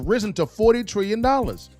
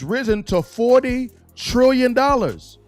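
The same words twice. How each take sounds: First: It is said in a plain, ordinary voice. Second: It is said loudly and with strong force.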